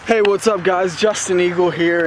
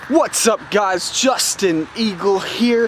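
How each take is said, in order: First: It is said with low energy. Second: It is said with high energy.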